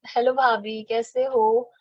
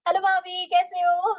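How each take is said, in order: First: It is said slowly and dully. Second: It is said fast and lively.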